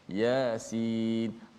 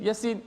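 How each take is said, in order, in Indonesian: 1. Vokal 'ya' ditahan selama dua ketukan. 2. Vokal 'ya' tetap dibaca pendek. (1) "ya dua harakat juga" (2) "tak boleh baca mad, kita baca macam biasa"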